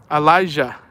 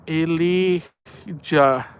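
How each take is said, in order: First: Elijah said like uh-LIE-zhuh with a long I; the right way, Elijah as uh-LIE-zhuh; correct pronunciation. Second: Elijah stretched out very slowly, like lee-ZHAAH; sounding out Elijah slowly; slow careful try. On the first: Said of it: "I got it right?". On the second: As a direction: Elijah drawn out syllable by syllable. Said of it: "I don't know if it's Alija". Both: Shown as a demonstration.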